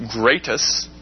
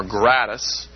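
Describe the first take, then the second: First: "Gratus" said GRAY-tus, with a long A; long-A pronunciation. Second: "Gratus" said GRAT-us, with a short A; short-A pronunciation. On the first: Lecturer naming the Roman procurator, "Gratus" as GRAY-tus. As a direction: say "Gratus" with first syllable like "gray". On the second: Lecturer offering the alternative name, "Gratus" as GRAT-us. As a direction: say "Gratus" with first syllable rhyming with "rat". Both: Shown as a demonstration. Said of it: "depending on how you pronounce it".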